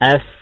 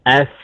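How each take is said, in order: No difference in how they are said.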